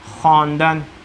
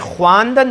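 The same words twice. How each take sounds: First: No w sound is heard after the kh. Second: A w sound is heard after the kh. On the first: The speaker calls it right. "ये है ख्वांदन" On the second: The speaker calls it wrong. "अब इसमें ये ख्वांदन नहीं है, वो साइलेंट है"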